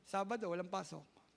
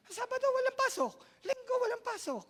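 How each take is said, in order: First: Said in the usual way. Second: Very high, loud gleeful quote; delighted high mock voice; high excited falsetto. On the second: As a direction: sing out the good news in falsetto. Voicing happy worker.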